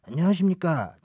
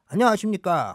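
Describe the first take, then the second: First: The voice is huskier and more muffled. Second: The voice is bigger and more exaggerated. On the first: "디제이 좀 더 탁해" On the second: "조금 조금 더 키워"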